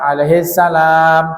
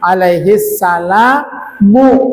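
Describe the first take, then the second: First: The last word ends on the m sound. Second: The last word ends with a short u vowel. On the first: The reader stops at this point. "kalau waqaf" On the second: The phrase runs on into the following words. "lebih fasih, lebih bagus dibaca dhammah mimnya"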